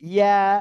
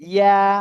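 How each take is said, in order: No difference in how they are said.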